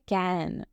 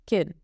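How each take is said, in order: First: The word is said with a full, clear vowel. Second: The word is said with a weak, reduced vowel. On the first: The word stands alone or is emphasized. "तब हम इसे पूरी तरह उच्चारित करते हैं" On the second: The word sits unstressed in the middle of a sentence. "तब उसका थोड़ा हल्का उच्चारण होता है"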